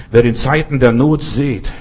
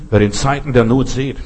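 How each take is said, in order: Both takes have the same delivery.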